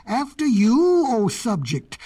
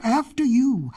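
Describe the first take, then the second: First: Loud, high swoop, then settling; lion's roar. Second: High, polite goat offer; bleating goat. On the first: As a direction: return the courtesy as a roaring lion. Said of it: "roared the lion". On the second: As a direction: give way as a humbled goat. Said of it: "bleated the goat". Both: A narrator's reading.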